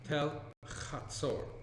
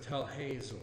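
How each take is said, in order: First: The name begins with a throaty ch sound. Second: The name begins with a plain, soft h sound. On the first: This is the original way the name is said. The speaker calls it right. "The correct pronunciation" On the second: This is the common way people say it. The speaker calls it wrong. "you'll often hear it referred to as"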